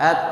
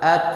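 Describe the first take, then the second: First: It ends in a t released with breath. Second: The same.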